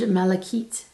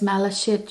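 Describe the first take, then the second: First: The word ends with a 'kite' sound. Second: The word ends with a 'shit' sound. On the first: The speaker calls it right. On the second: The speaker calls it wrong.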